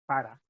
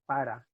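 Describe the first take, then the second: Both takes have the same delivery.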